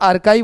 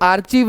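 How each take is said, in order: First: It has a k sound and ends in ive. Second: It has a ch sound and ends in eev. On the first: The speaker calls it right. "आर्काइव होता है" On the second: The speaker calls it wrong. "जैसे आर्चीव नहीं होता"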